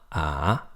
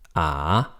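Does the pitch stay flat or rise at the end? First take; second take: rise; rise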